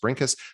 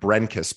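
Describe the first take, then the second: First: The first vowel sounds like the i in 'brink'. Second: The first vowel sounds like the e in 'bread'. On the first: The speaker calls it right. "but it's pronounced Brinkus" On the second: The speaker calls it wrong. "it looks like Brenkus"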